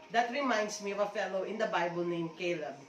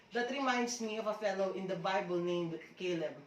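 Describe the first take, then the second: The two takes are said the same way.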